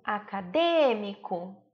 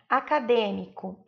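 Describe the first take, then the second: First: "acadêmico" slowly, stretching the DÊ; stress on antepenultimate syllable. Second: Said in the usual way. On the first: Shown as a demonstration. Teacher showing pupils the tonic syllable, "acadêmico" with long stressed DÊ. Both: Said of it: "Percebam que é a antepenúltima sílaba tônica".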